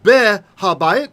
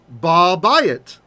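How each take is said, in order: First: The h sound of the article is pronounced. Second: The h sound drops and the vowel merges.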